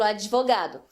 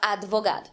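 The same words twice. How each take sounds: First: An extra i vowel follows the d. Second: The d is followed directly by v. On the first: "E se tem, a gente coloca um I, por exemplo" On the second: "A gente não fala advogado"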